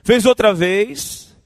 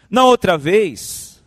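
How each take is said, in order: First: Loud, slow, drawn out, with "outra" stressed and rising; slow emphatic rise. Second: Loud, slow, with "outra" stressed and falling hard; slow emphatic fall. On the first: Preacher warning the church about a first offence, slow loud rise. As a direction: stretch "outra" and lift it loud at the end. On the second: Preacher warning the church about a repeat offence, slow loud fall. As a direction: bring "outra" down heavily, like a verdict. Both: Shown as a demonstration.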